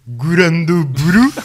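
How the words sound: The title is said with a Japanese accent.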